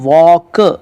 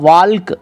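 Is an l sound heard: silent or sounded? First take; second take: silent; sounded. First: No l sound is pronounced before the k. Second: An l sound is pronounced before the k. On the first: The speaker calls it right. "इसको पढ़ेंगे वॉक" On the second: The speaker calls it wrong. "ऐसे नहीं पढ़ेंगे"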